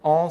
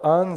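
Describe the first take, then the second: First: It is pronounced the French way. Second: It is pronounced the Luxembourgish way. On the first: "alors je vais dire en français peut-être" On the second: "ils existent aussi en luxembourgeois"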